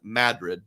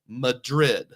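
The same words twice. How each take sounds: First: The name is said the Iowa town's way. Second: The name is said the Spanish city's way. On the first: It names the small town in Iowa. "that's how you pronounce it" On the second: It names the capital city in Spain. "But in Spain, it's called Madrid"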